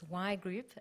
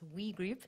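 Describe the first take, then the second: First: The first word sounds like 'why'. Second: The first word sounds like 'we'. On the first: The speaker calls it right. "it's Y Group" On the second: The speaker calls it wrong. "and not We Group"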